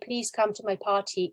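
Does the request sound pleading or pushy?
pushy. It sounds pushy and insistent. The listener feels cornered with no room to refuse. "also sounds very pushy"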